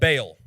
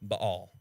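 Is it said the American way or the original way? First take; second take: American; original. First: It is said the American way. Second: It is said the original way.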